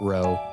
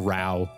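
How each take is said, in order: First: The word is pronounced the American way. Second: The word is pronounced the British way. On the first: The speaker calls it wrong. "You're showing you're American by pronouncing it row" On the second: The speaker calls it right. "It's a row"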